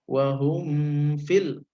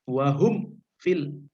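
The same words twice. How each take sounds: First: The m is hidden and nasalized into the f. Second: The m is pronounced clearly with closed lips. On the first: The speaker calls it wrong. "jadi jangan wahum fil, jangan begitu ya" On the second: The speaker calls it right. "tapi dibacanya jelas ya"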